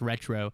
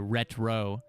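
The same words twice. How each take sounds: First: The name is said quickly as one word. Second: The name is said slowly, drawn apart.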